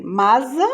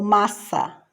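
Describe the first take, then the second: First: "masa" with a buzzing Z, rising questioningly; Z sound. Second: Said in the usual way. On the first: Shown as a demonstration. Teacher offering the wrong option, "masa" voiced with Z. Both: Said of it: "dois S's".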